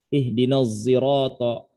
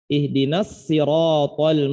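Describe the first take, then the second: First: The s in sirat is blended toward z. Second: The s in sirat is a plain s. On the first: "ismam antara zai dengan shad" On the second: "bukan pakai shad, pakai sin itu"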